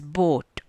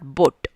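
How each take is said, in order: First: The vowel is drawn out long. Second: The vowel is cut short. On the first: The speaker calls it right. "it has a long pronunciation" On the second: The speaker calls it wrong. "it's not boat"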